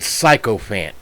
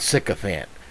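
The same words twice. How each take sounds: First: The first part sounds like psycho. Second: The first part sounds like sick. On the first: "I did not mispronounce the word. These people are psychos" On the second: "not sycophant"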